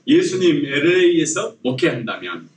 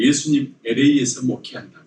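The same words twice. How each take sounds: First: Measured, evenly phrased title for repeating; lead for repetition. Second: Said in the usual way. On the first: Shown as a demonstration. Preacher has congregation repeat the sermon title, measured lead. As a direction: say it out for everyone to repeat. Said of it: "따라서 한번 해볼까요?". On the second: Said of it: "설교 제목을".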